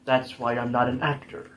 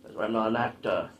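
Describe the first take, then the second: First: Said in the usual way. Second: Slightly low, lingering mock Austrian accent; leftover Arnold accent. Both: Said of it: "I still have the accent".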